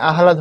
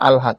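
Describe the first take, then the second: First: The h sound comes before the l sound. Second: The h sound comes after the l sound. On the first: The speaker calls it wrong. "আহলাদ হবে না" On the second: The speaker calls it right. "হবে আলহাদ"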